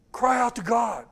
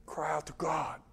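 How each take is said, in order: First: Said in the usual way. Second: Whispered answer, intimate and low; whispered reply to his own question; hushed whisper. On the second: Real, not acted. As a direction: breathe the words like a secret. Preacher drops to a hush.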